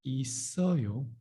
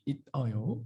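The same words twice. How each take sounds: First: 있어요 said i-sseo-yo with a tense s; spoken pronunciation. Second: 있어요 said it-eo-yo, stopped t and no s; as written. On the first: Teacher shows speaking version, 있어요 as i-sseo-yo. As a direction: run the final consonant into the vowel, 있어요 as i-sseo-yo. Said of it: "Speaking is gonna be". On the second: Teacher contrasts writing with speech, 있어요 as it-eo-yo. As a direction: break 있어요 after the t, as spelt. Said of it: "Writing is only 있어요". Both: Shown as a demonstration.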